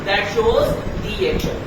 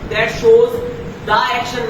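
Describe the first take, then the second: First: The word 'the' is said as 'thee'. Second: The word 'the' is said as 'thuh'. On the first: The speaker calls it right. "दी पढ़ना है" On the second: The speaker calls it wrong. "नहीं पढ़ना"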